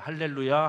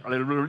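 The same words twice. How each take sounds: First: It is said slowly, about once a second. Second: It is said very fast, many times a second. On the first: Speaking in tongues will not come. The speaker calls it wrong. "할렐루야를 일 초에 한 번 하면 안 돼요" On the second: Speaking in tongues will come. The speaker calls it right. "일 초에 열 번 해야 된답니다. 이렇게"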